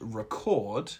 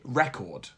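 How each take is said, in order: First: The stress is on the second syllable. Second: The stress is on the first syllable. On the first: It is a verb. "record as the verb" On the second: It is a noun. "record as the noun"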